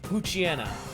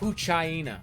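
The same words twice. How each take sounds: First: It is split as poochie plus ena. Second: It is split as pooch plus hyena. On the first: The speaker calls it wrong. "not Poochyena. A lot, of, as I've heard many, many people pronounce it" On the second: The speaker calls it right. "it's meant to be a pooch hyena. So it'd be pronounced Poochyena"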